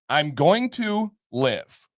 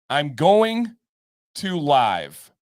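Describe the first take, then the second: First: The word live rhymes with give. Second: The word live rhymes with five. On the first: Staying alive. "live and live" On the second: Broadcasting in real time. "in parentheses, stream"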